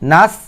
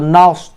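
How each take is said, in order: First: The syllable sounds light and thin. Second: The syllable sounds heavy and thick. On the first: The speaker calls it wrong. "নাস বলবেন না" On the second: The speaker calls it right. "নাস একটু মোটা করবেন"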